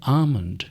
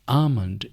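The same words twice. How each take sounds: No difference in how they are said.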